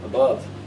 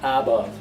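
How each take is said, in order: First: The first vowel is a weak schwa. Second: The first vowel is a full vowel. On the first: The speaker calls it right. "weak form" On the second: The speaker calls it wrong. "The a is not above"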